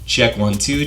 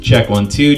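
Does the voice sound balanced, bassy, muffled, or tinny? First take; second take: tinny; balanced. First: The voice sounds bright and tinny, with strong treble. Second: The voice sounds even, with balanced treble and bass. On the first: "you hear a lot more presence in my voice, and it's almost like a tinny sound" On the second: "that will give us a more balanced sound"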